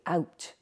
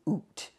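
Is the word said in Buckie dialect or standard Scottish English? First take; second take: standard Scottish; Buckie. First: It is said in standard Scottish English. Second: It is said in the Buckie dialect.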